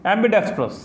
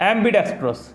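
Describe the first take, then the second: First: Ambidextrous said slowly, leaning harder on the capitalised part; slow it down and push extra weight onto the capital syllable of ambidextrous; stress on the capital syllable. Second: Said in the usual way. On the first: Shown as a demonstration. Teacher modelling the word for students, ambidextrous said slowly with stronger stress on the capital syllable. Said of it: "capital लिखा गया है उस पर थोड़ा सा ज़्यादा जोर देके बोलना". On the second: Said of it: "थोड़ा सा ज़्यादा जोर देके बोलना है".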